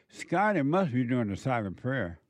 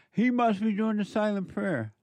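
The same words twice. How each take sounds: First: Said in the usual way. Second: Tease, pitched up, stressing "He"; playful higher jab stressing "He"; teasing repeat. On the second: Shown as a demonstration.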